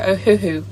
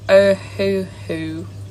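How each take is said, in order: First: The name is said quickly. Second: The name is said slowly.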